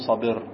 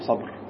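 First: A short vowel follows the b sound. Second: No vowel follows the b sound. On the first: This is the normal Arabic form. The speaker calls it right. "في لغة العرب يقال صبر" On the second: This form is used only under poetic necessity. The speaker calls it wrong. "لا يقال صبر. التسكين إنما يلتجأ إليه في الضرورة الشعرية"

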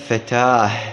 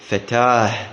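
First: The word ends with an h sound. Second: The word ends with an h sound.

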